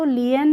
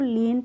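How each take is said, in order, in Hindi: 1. स्वर दो अलग आवाज़ों में बँट जाता है। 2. स्वर एक लंबी ee आवाज़ है। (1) "लियन नहीं पढ़ेंगे" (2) "तो लीन पढ़ेंगे"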